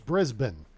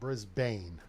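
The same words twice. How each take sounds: First: The second vowel is short and reduced. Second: The second vowel is long and exaggerated. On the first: The speaker calls it right. "Kind of short" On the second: The speaker calls it wrong. "Not Brisbane. I'm exaggerating it there"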